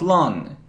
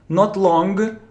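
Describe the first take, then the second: First: It ends on the nasal with no hard g. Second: A hard g sound is released after the nasal. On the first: The speaker calls it right. "If you have NG, it's N" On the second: The speaker calls it wrong.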